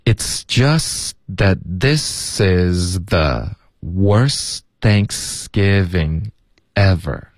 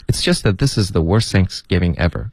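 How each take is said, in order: First: 很慢地拖着音，把词连起来读; 给学生一块一块地慢读示范; 慢速连读. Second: 一口气连着读完整句，不拖音; 像绕口令一样顺着连读; 快速连读. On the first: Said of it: "来，这句话连读起来". (放慢、拉长，逐段连读) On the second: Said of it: "好快呀". (流利、快速地连读) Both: Shown as a demonstration.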